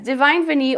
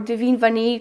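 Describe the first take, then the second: First: The name is said with English pronunciation. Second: The name is said with French pronunciation.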